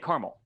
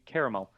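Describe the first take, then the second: First: It is said in a regional dialect pronunciation. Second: It is said in the standard pronunciation. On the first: The speaker calls it wrong. "different regional dialects and everything, and that's just how we say caramel" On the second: The speaker calls it right. "but it should be caramel"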